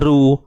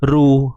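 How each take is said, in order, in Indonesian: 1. Bunyi r diucapkan tipis dan ringan. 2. Bunyi r diucapkan tipis dan ringan.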